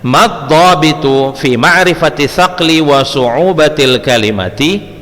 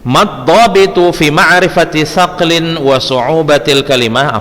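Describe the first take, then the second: First: The last word ends with a final i vowel. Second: The last word ends without a final vowel. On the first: The speaker calls it right. "baris bawah ya, kalimati" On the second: The speaker calls it wrong. "afwan salah bacanya"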